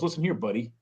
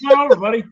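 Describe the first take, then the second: First: A mild warning tone on "buddy"; a touch of threat in "Listen here, buddy"; threatening. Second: Laughing, friendly and high; cheery "Come over, buddy"; friendly invitation. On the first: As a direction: warn them, a hint of menace. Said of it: "But if someone goes". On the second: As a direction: welcome a pal in. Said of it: "it's the inflection". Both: Retold or imitated.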